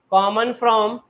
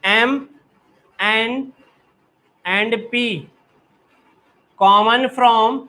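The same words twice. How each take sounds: First: Said in the usual way. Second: Slow dictation. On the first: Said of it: "teacher repeats phrase". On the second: Shown as a demonstration. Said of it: "teacher dictating phrase".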